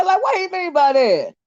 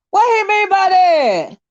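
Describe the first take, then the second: First: Said in the usual way. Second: Emphatic repeat. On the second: Real, not acted. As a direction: repeat it, stretching out the disbelief. Repeats a viewer comment louder.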